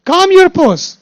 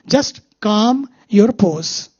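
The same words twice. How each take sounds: First: Calm your pose called out high and loud; emphatic mantra. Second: Calm your pose said very slowly; slow calm mantra. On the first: Teacher urging agitated listeners, raised emphatic call. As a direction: urge it forcefully, pitch up. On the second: Teacher giving the mantra to the audience, slow and drawn-out. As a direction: draw each word out, soothing. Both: Shown as a demonstration. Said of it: "Why you are so agitated".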